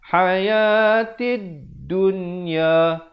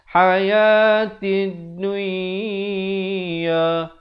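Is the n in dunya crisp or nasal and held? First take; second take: crisp; nasal. First: The n is said clearly without nasal holding. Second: The n is nasalized and held for two counts. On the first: The speaker calls it right. "Jelaskan saja dun terus masuk ya" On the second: The speaker calls it wrong. "Kita baca dengung dua harakat macam idgham bi gunnah. Tak betul ya"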